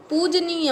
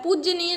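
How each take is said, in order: First: पूजनीय with j running into n; "pooj-neeya" for पूजनीय; correct form. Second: पूजनीय with an extra sound between j and n; wrong form. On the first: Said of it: "पूजनीय होता है". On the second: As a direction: say पूजनीय as "pooj-ya-neeya". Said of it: "पूजनीय नहीं होता है". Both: Shown as a demonstration.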